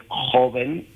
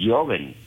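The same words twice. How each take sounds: First: Said in the usual way. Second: «joven» con sonido de Y inicial; pronunciación antigua. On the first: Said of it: "antes joven se escribía joven". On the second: Shown as a demonstration. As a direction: say «joven» starting with a Y sound, not a J. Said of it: "se pronunciaba joven". («joven» dicho «yoven»)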